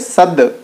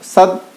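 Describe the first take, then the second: First: The final consonant is released with a bounce. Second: The final consonant is held and stopped dead. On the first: The speaker calls it right. "बल्कि सद" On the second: The speaker calls it wrong. "सद रुक नहीं जाएंगे"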